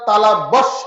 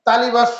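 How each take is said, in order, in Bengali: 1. এটি সতর্ক, প্রমিত উচ্চারণে বলা হয়েছে। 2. এটি সাধারণ, পরিবর্তিত উচ্চারণে বলা হয়েছে। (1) "আসল উচ্চারণ" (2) "তালিভাষ্য আমরা বলি, তালিভাষ্য কি সঠিক উচ্চারণ? না"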